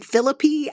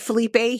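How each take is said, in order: First: The name is said oddly, sounding like Philippi. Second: The name is said the usual Spanish way. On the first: The speaker calls it wrong. "he called him Philippi ... that's not how you pronounce those things" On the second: The speaker calls it right. "he didn't call Felipe Felipe"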